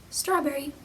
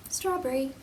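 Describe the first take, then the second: No difference in how they are said.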